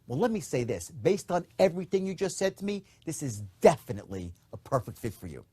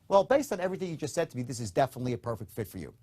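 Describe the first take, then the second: First: It is said in a certain, enthusiastic tone. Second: It is said in a casual, relaxed tone.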